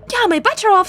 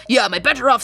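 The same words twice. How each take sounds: First: First eager take, "Yeah" lifted up high; higher excited read. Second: Said in the usual way. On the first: Shown as a demonstration. Streamer reading a game line, first take higher and brighter. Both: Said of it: "said the same thing".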